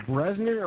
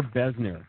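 First: "Bresner" with an R after the B; "Bresner", opening on a BR cluster; name said with an R. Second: "Besner" with no R after the B; "Besner", opening on a plain B; name said without R. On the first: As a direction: say "Bresner" as BREZ-ner, R sounded. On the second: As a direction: say "Besner" as BEZ-ner. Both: Shown as a demonstration. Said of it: "Are we saying it, is it Bresner or Besner".

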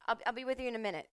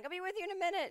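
First: Higher, fast brush-off; busy bartender. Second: Much higher stressed brush-off; stressed bartender. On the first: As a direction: rattle off I'll be with you in a minute as a quick dismissal. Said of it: "is like". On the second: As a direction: chirp I'll be with you in a minute in a frazzled, high voice. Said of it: "she just keeps being like". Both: Retold or imitated.

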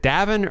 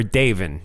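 First: Davin with short a, as in "have"; pronunciation option. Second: Davin with long a, "DAY-vin"; alternative pronunciation. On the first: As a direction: say Davin to rhyme with "ravin'" with a short a, "DAV-in". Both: Shown as a demonstration. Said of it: "how to pronounce your name".

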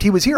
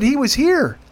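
First: Said in the usual way. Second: "here" pushed high with a falling end; emphatic insistence. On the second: Retold or imitated. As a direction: hammer home "He was here". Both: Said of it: "I said, He was here".

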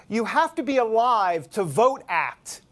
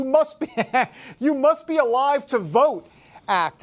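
First: "You Have to Be Alive to Vote Act" read slowly, leaning on "Have"; slow title reveal. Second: "You Must Be Alive to Vote Act" said higher and louder, breaking into a laugh on "Must"; laughing through it. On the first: Shown as a demonstration. Host teasing the audience with a bill's odd name, slow emphatic reveal. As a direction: spell out each word of "You Have to Be Alive to Vote Act" like a punchline, stressing "Have". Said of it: "You ready for the name of this bill?".

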